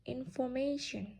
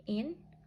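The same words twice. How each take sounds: First: Said in the usual way. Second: "information" as in, for, ma, tion with long gaps; syllable by syllable. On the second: Shown as a demonstration. Teacher counting four syllables, "information" syllable by syllable. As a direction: pause after each beat of "information". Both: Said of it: "Information has four syllables".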